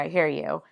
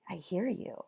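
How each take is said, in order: First: It sounds flat, offhand and distracted. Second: It sounds warm, engaged and attentive. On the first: The listener is not really paying attention. The speaker calls it wrong. "me looking at my phone and saying" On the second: The listener is fully present with the person. The speaker calls it right. "my tone is different"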